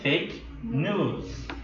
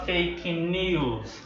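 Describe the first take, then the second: First: The vowel in news is a plain 'oo'. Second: The vowel in news has a 'yoo' glide. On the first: The speaker calls it right. "mas sim fake news" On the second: The speaker calls it wrong. "a gente não fala fake news"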